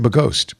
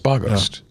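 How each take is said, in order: First: The stress is on the second syllable. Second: The stress is on the first syllable. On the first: The speaker calls it wrong. "I want to put the, the accent on the second syllable too" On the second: The speaker calls it right. "but it's"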